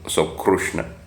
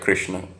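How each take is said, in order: First: The first syllable is said with a 'ru' sound. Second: The first syllable is said with a 'ri' sound. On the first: "they pronounce it as Ru" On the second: "people do pronounce the Kri sound"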